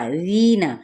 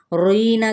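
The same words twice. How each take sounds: First: रीना with a thin, light r and a clear ee; correct thin ra. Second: रोईना with a heavy, rounded o after the r; mock the mistake, say रोईना with an o sound; wrong heavy ra. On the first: Teacher shows the right way, light thin r. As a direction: say रीना lightly, no o sound after the r. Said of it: "रा यहाँ पे बारीक पढ़ा जाएगा". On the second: Teacher shows students the wrong reading, heavy r. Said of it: "करके नहीं पढ़ना". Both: Shown as a demonstration.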